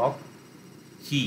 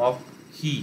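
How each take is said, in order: First: অক্ষি broken into its syllables, very slow and barely voiced; split into syllables. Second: Said in the usual way. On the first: Shown as a demonstration. Teacher breaks the word for students into syllables. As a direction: spell out অক্ষি syllable by syllable, drawn right out. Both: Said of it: "syllable ভেঙে নিতে হবে".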